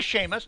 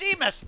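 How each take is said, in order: First: The first syllable sounds like 'shay'. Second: The first syllable sounds like 'see'. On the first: "if they want us to say Seamus, then they should have spelled it S H A Y M U S" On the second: "They spelled it S E A M U S. That's Seamus"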